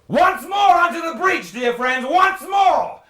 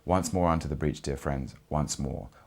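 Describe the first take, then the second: First: It is said loudly and grandly, like addressing an army. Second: It is said plainly and neutrally, at normal volume.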